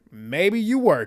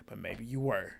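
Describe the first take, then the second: First: "Maybe you were" pitched up and louder; emphatic repeat. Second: Low, soft afterthought; quiet musing. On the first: Recapper doubting the show, "Maybe you were" said high and loud. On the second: Recapper wondering whether she was paid, quiet musing. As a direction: drop it low and soft, as if conceding. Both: Real, not acted. Repeats the thought with more force.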